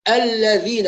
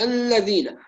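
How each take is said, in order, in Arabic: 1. صوت اللام صافٍ، بلا غنّة. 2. صوت اللام مغنّى من الخيشوم. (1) "أصفي صوتها من الغنة فأحقق مخرجها" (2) "وليست الذين"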